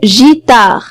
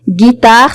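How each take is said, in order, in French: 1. Le mot commence par un son zh doux. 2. Le mot commence par un g dur. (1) "Si jamais il n'y a pas U, je vais prononcer le mot gitare et c'est pas correct" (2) "on voit G U et on prononce G"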